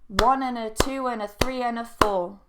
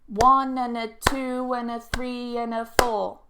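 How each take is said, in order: First: It is said faster. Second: It is said slowly. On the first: "Bit faster, more natural" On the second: "I'll do it slowly first"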